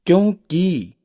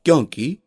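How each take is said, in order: First: क्योंकि with long final ee; wrong vowel length. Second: क्योंकि with short final i; correct vowel length. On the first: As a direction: stretch the 'kee' ending of क्योंकि high. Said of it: "अशुद्ध शब्द है". (क्योंकि को 'क्योंकी' बोलना) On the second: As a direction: end क्योंकि on a quick 'ki'. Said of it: "शुद्ध शब्द है". (क्योंकि में छोटी इ) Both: Shown as a demonstration.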